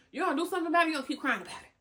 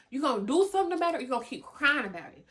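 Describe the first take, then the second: First: Higher, louder challenge; firm challenge. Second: Insistent challenge. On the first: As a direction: push them to choose. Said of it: "repeated choice, first take". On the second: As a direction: drive the choice home quickly. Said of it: "repeated choice, second take". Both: Real, not acted.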